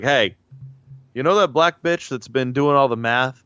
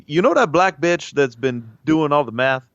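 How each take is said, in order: First: Lightly voiced quote of an astronaut; a hint of an astronaut impression; John Glenn impression. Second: Lightly put-on astronaut voice, a touch higher; mock verbatim astronaut impression; John Glenn impression. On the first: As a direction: act out the astronaut's request, lightly. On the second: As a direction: redo the astronaut quote, a bit more in character. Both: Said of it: "That's what John Glenn sounded like".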